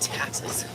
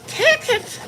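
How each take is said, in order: First: The vowel sounds like the one in taxes. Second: The vowel sounds like the one in Texas. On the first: The speaker calls it right. "I'm saying" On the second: The speaker calls it wrong. "you better have enough for Texas"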